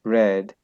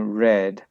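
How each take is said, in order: First: The word begins with an R sound. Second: The same.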